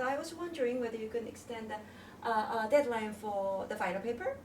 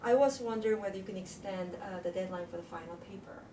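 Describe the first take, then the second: First: The pitch rises at the end of the request. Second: The pitch falls at the end of the request. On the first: It may come across as rude. The speaker calls it wrong. "tend to use the rising tone" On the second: It is a polite, appropriate request. The speaker calls it right. "So you know I use the folding tone"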